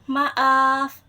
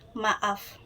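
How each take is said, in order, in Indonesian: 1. Kata itu dipanjangkan. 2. Kata itu diucapkan dengan durasi normal. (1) "Durasinya panjang" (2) "Nadanya terlihat atau terdengar normal"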